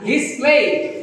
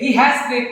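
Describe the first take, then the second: First: He and has merge into one short syllable. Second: He and has are said as two full words. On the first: The speaker calls it right. "উচ্চারণ করে পড়াশোনা কি হিজ" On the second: The speaker calls it wrong. "না"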